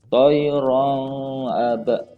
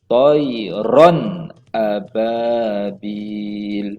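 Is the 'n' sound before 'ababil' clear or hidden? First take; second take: hidden; clear. First: The n sound is concealed and not clearly heard. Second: The n sound is pronounced clearly and distinctly. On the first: The speaker calls it wrong. "Jangan kita sembunyikan seperti begini... itu salah" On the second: The speaker calls it right. "kita menjelaskan bunyi tanwin ini"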